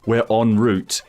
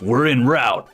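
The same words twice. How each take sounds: First: The word route is said in a British way. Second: The word route is said in an American way. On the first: The speaker calls it right. "instead of saying" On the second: The speaker calls it wrong. "he says"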